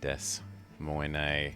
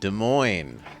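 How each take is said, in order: First: It is said like 'Desmonet', ending in 'ay'. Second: It is said like 'Duh Moyn', ending in 'oyn'. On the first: The speaker calls it wrong. "You thought I was trolling with Desmonet?" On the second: The speaker calls it right. "But it's Des Moines"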